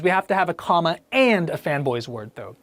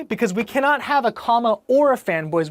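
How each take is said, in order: First: And pressed as right; stress on AND. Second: Or pressed as wrong; stress on OR. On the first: Teacher insisting on and for the class. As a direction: lean on and. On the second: Teacher rejecting or for the class. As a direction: lean on or. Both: Shown as a demonstration. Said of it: "Well, why?".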